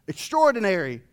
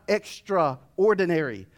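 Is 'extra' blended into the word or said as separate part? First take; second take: blended; separate. First: The word is said as one blended unit. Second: Extra and ordinary are said as separate parts. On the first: Something remarkable beyond the usual. The speaker calls it right. "that's the right way to say it" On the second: Something even more ordinary. The speaker calls it wrong. "not extraordinary. I don't want more ordinary"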